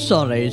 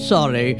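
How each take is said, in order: Both takes have the same delivery.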